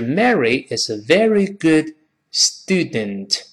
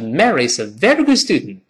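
First: The sentence is said slowly and clearly. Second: The sentence is said quickly with sounds reduced. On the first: "读慢了是" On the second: "读快了是"

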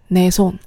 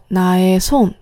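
First: The word for my is merged into one syllable. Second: The word for my has two syllables. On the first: "나의就可以连起来读成내" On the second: "我的手나의손"

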